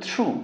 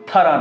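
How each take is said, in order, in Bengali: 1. এই শব্দটি oo স্বরধ্বনি দিয়ে শেষ হয়। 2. এই শব্দটি ah স্বরধ্বনি দিয়ে শেষ হয়। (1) "এটার উচ্চারণ কিন্তু থ্রু" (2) "থারা না"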